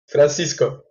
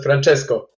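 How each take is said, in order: First: The second vowel sounds like 'i', Fran-CIS-co. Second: The second vowel sounds like 'e', Fran-CHES-co. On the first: This is the intended name. The speaker calls it right. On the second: This is how the other person said the name. The speaker calls it wrong.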